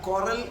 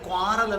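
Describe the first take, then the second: First: The word begins with a plain 'k' sound. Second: The word begins with a 'kw' sound. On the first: The speaker calls it right. "അതിൻ്റെ ഉച്ചാരണം കൊറൽ എന്നാണ്" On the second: The speaker calls it wrong. "നിങ്ങൾ ക്വാറൽ എന്ന് പറയും"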